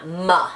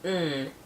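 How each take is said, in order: First: The m sound is followed by a vowel. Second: A held m sound with no vowel after. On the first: The speaker calls it wrong. "not m" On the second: The speaker calls it right. "The sound is mm"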